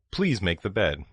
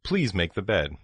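No difference in how they are said.

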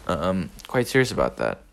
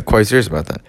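First: Said in the usual way. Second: Laughing. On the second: Shown as a demonstration.

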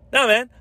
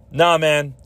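First: "Nah, man" thrown out much higher and pushed hard; pushy brush-off. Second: Said in the usual way. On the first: Retold or imitated. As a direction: shove the words "Nah, man" away, insistent and fed up. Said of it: "really pushing it forward". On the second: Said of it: "I was like".

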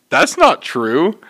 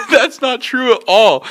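First: Slow, measured contradiction; retold simple denial. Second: High, drawn-out disbelief; indignant denial. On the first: Coworker backing up deli worker, slow measured denial. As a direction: deny it slowly, without the high protest. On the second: Retold or imitated. Deli worker denying customers' claim, high indignant protest. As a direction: protest the accusation, pitched way up and slow. Retold denial of false accusation.

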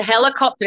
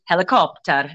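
First: Said in the usual way. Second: "helicopter" pronounced with a Gaelic lilt; Gaelic-style accent. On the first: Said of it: "and the helicopter is". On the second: Shown as a demonstration. Teacher jokes about borrowed words, Gaelic-accented "helicopter". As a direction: make "helicopter" sound Gaelic. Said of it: "you sort of say it like that".

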